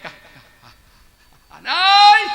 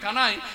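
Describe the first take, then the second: First: The name is stuttered, repeating its first syllable. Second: The name is said smoothly, without stuttering.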